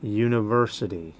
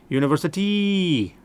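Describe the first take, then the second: First: The stress is on the third syllable. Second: The stressed last syllable is strong and stretched. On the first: The speaker calls it right. "It's the third syllable. Third syllable is accented" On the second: The speaker calls it wrong. "They'll put the accent on that last syllable"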